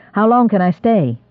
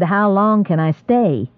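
First: Said in the usual way. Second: Repeated slowly, each word spaced; slow deliberate repeat. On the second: A narrator's reading. Holmes repeats his question to the squire, slow and insistent. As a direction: ask again, slower and firmer. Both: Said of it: "I said".

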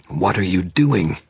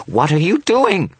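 First: Slow, louder, alarmed demand; drawn-out, alarmed question; rising alarm. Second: Slow, very high panicked shriek; drawn-out, loud, high scream; high-pitched shriek. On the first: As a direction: start the climb towards a shriek. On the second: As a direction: shriek it in horror. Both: A narrator's reading. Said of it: "his voice rising to a high-pitched shriek".

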